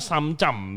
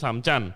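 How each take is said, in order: First: The word ends with an m sound. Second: The word ends with an n sound. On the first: This is how people there say it. "Kalau di sana samcam bilangnya, pakai M" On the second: This is how the speaker's Chinese family says it. "kalau orang Cina bilangnya samcan"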